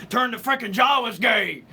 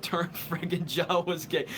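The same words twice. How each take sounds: First: Shouted Alex Jones rant, louder; Alex Jones impression. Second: Said in the usual way. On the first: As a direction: bellow it like a conspiracy radio host. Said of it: "Alex Jones".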